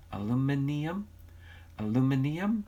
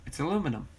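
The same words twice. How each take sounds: First: "Aluminium" with the extra "ee" syllable, pitched up like a question; questioning British pronunciation. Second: Said in the usual way. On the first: Shown as a demonstration. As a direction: try out "Aluminium" doubtfully, rising on the final "ee-um". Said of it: "What'd Sally say?". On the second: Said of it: "you say aluminum funny".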